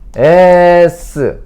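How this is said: The letter is said the Korean way. The speaker calls it wrong. "한글"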